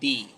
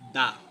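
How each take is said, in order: First: The vowel is a long, bright 'ee' sound. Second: The vowel is a short, neutral 'uh' sound. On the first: It comes before a word starting with a vowel. "Vowel ওয়ার্ডের প্রথম word অর্থাৎ দা এর উচ্চারণ" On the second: It comes before a word starting with a consonant. "Consonant word এর আগে যেই T H E থাকে তার উচ্চারণ"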